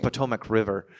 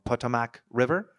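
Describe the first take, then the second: First: "Potomac" as puh-TOH-mack, long stressed O; "Potomac" repeated correctly as puh-TOH-mack, settled statement; corrected pronunciation. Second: "Potomac" with a weak, unrounded middle vowel, questioning rise on "River"; "Potomac" mispronounced without the long O, as a question; unsure mispronunciation. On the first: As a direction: say "Potomac River" with a clear TOH in the middle, falling at the end. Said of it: "Potomac, right". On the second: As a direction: try "Potomac River" tentatively as POT-uh-mack, asking if it's right. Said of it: "I'm gonna say it wrong".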